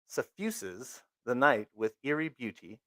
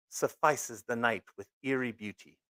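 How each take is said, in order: First: "suffuses" said as suh-FYOO-zez; careful corrected "suffuses" with a long U; corrected word. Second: "suffices" said as suh-FY-sez, rhyming with spices; mispronounced word. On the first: Reader correcting herself after apologizing, careful. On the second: Reader stumbling over a word in the comic, mispronouncing. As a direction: misread "suffices" with a long I sound. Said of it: "totally slaughtering words". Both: Shown as a demonstration.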